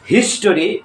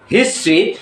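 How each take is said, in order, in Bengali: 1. শেষে 'ree'-র আগে পূর্ণ স্বর থাকে। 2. শেষ অংশটা একটি 'tree'-তে সংকুচিত হয়। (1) "টরি, টেরি কিংবা টারি না" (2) "উচ্চারণটা হবে ট্রি"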